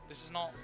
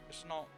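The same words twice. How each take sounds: No difference in how they are said.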